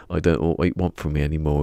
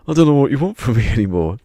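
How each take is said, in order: First: Said in the usual way. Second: Very loud, high, fast overacting; mock outburst breaking into a laugh; upset angry retake. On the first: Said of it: "he can't say". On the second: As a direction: imitate an actor botching his angry line. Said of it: "he gets upset with the director".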